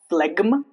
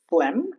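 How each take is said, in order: First: The G is pronounced. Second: The G is silent. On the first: The speaker calls it wrong. "It's not phlegm, Those are wrong" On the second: The speaker calls it right. "G before M"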